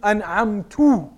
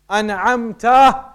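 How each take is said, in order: First: The word ends with a tu sound. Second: The word ends with a ta sound. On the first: I blessed them. The speaker calls it wrong. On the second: You blessed them. The speaker calls it right.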